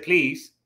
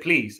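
First: Even, polite please, the same again; calm polite please repeated. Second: Even, polite please; calm polite please to a stranger. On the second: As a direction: say it calmly and politely. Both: Shown as a demonstration. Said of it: "I'm talking to him just like this".

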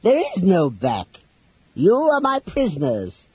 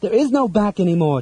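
First: Slow, high villain voice; villain at the door. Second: Restrained, high-pitched cry; wild cry. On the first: Captor in the doorway to trapped companions, villainous. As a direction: draw it out high, as a gloating captor. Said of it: "said a voice from the door". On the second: Tika to companions seeking a back way out, crying out. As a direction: cry it out higher, with a touch of panic. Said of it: "Tika cried wildly". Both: A narrator's reading.

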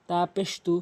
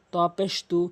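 First: "তু" with a light, thin t. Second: "তু" with a heavy, full t. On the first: Teacher contrasting letters, "তু" with light t. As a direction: keep the t of "তু" thin. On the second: Teacher contrasting letters, "তু" with heavy t. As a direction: thicken the t of "তু". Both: Shown as a demonstration. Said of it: "হরফের পার্থক্যগুলো".

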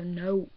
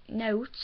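First: "No" said in the speaker's own accent; own regional accent. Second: "Note" said the schoolmates' way; others' accent. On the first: Shown as a demonstration. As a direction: show your home accent on "No". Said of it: "Like, with an accent". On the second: Retold or imitated. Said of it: "they say".

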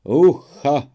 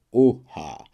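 First: High, loud festive shout of ucha; joyful whoop. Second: An echoing, less loud ucha; a second, fading cheer; softer joyful whoop. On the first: Wedding guests cheering as fear passes, loud whoop. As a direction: let out a glad wedding cry. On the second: Guests cheering again further off, softer whoop. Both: Acted. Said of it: "ozwały się radosne".

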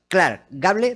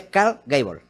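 First: Slow "Clark Gable" with Spanish GA-ble; spell-reading "Gable" as GAH-bleh; read as spelt. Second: Slow "Clark Gable" ending in GAY-bol; pronounced English-style. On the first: Puzzled over what is written here, reading "Gable" the Spanish way. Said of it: "si pone aquí Clark Gable". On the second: Questioning why it's said so, English-style "Gable". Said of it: "Porque se pronuncia Gable". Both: Shown as a demonstration.

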